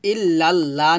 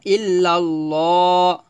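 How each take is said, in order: First: "ইল্লাল্লাহ" with a thin, open "la" in the second part; the uncorrected "ইল্লাল্লাহ", with a plain a-vowel "la"; thin "la" sound. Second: "ইল্লাল্লাহ" slow, with a rounded, drawn-out "lo"; slow recitation of "ইল্লাল্লাহ", thickening the last "la" into "lo"; heavy "lo" sound. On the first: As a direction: say "ইল্লাল্লাহ" with light "laa", not rounded "lo". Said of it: "না বললে আমরা ল বলবো". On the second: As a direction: say "ইল্লাল্লাহ" as "illal-looo". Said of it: "আমরা ল বলবো". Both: Shown as a demonstration.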